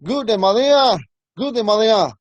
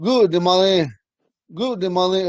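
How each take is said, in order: First: Higher-pitched "Good, de Malia" ending in an open "ah"; another woman's way. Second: "Good, de Malin" ending in an "in" sound; one woman's way. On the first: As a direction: lift "de Malia" high, falling on the final "a". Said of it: "you might hear another woman say". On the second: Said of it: "She might say". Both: Retold or imitated.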